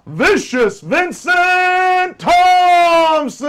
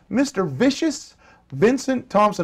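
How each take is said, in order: First: The name is belted out like a ring announcer. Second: The name is said in a plain speaking voice.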